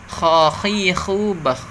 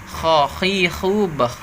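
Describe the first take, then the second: No difference in how they are said.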